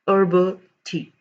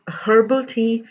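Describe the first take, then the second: First: The word begins with a vowel, no H. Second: The word begins with an audible H sound. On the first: The speaker calls it right. "it is herbal tea" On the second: The speaker calls it wrong. "It is not herbal tea"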